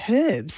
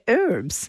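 First: The word begins with an audible h sound. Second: The word begins with no h sound. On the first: "why don't Americans say herbs?" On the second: "They say herbs"

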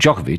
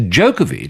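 First: The first syllable does not sound like 'joke'. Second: The first syllable sounds like 'joke'. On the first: This is the older, familiar way of saying it. "He was always known as Djokovic here" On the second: This is the newer way, matching a nickname. "To go with the Joker"

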